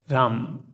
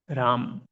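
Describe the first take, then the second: First: It ends on the consonant, one syllable. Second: It ends on the consonant, one syllable.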